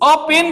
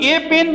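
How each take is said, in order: First: The article is a short reduced 'uh' sound. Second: The article is a full 'ay' sound. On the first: The speaker calls it right. "अ pen बोलो" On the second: The speaker calls it wrong. "अगर तुम ए pen बोलते हो तो ये हो गया wrong"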